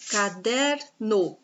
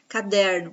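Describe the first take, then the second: First: "caderno" very slowly, split as ca-DER-no; syllable-by-syllable. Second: Said in the usual way. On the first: Shown as a demonstration. Teacher showing the class the penultimate syllable, "caderno" broken into slow syllables. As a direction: stretch the DER in "caderno", then a separate "no". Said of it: "No é a última sílaba e o der é a penúltima". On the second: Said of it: "mas caderno".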